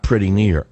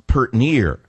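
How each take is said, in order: First: "pretty near" with both syllables of "pretty"; standard pronunciation. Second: "pert near" drawn out slowly, country style; hillbilly pronunciation. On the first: Radio host correcting the hillbilly form, standard "pretty near". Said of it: "not pretty near". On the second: Radio host mocking her hillbilly coaching, slow country "pert near". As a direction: run "pretty" down to one syllable, "pert", and stretch it. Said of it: "watch every episode of the Beverly Hillbillies". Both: Shown as a demonstration.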